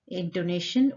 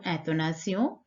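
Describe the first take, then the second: First: "intonation" said the English way, ending in "-shun"; English pronunciation. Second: "intonation" said the French way, ending in nasal "-syon"; French pronunciation. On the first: Teacher names the first question structure for students, English pronunciation of "intonation". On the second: Teacher gives students the French term, French pronunciation of "intonation". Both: Shown as a demonstration. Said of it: "intonation or intonation".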